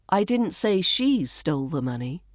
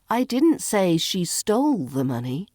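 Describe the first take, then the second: First: The word she carries the main stress. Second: The word stole carries the main stress. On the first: Someone else stole it. "Maybe someone else stole it" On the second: She may have borrowed it instead. "Maybe she borrowed it"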